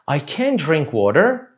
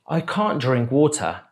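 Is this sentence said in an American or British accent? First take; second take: American; British. First: It is said in an American accent. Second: It is said in a British accent. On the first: "Primeiro o americano" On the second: "depois o britânico"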